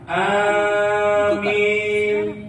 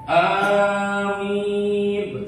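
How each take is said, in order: First: The long first vowel leans toward an e sound. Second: The first vowel is held long. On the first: "bacaan panjang disertai miring, imala" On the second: "bil maddi, amin panjang"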